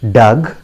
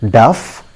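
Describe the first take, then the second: First: It ends with a g sound. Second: It ends with an f sound.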